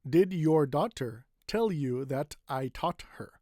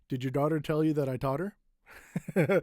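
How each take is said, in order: First: Each word is pronounced separately with crisp T sounds. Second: The words run together with soft D-like T sounds.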